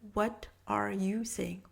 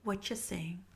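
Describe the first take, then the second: First: The word 'are' is clearly pronounced. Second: The word 'are' is dropped in fast speech.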